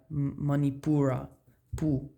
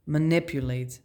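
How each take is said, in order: First: Manipura with stress on pu, man-ee-POO-rah. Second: Manipulate with stress on nip, muh-NIP-yoo-late. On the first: Showing viewers where Manipura's emphasis falls, careful pronunciation. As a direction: lean on pu in Manipura, then say pu alone. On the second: Contrasting Manipulate with Manipura for viewers, careful pronunciation. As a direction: land the weight on nip in Manipulate. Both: Shown as a demonstration. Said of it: "we put the emphasis on a different part of the word".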